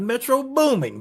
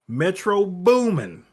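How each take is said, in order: First: The second word ends with a g sound. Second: The second word ends without a g sound. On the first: The speaker calls it wrong. "not Metro Booming" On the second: The speaker calls it right. "Take that G off of booming"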